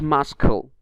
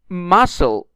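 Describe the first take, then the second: First: The silent letter is pronounced aloud. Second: The silent letter is not pronounced. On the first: The speaker calls it wrong. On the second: The speaker calls it right.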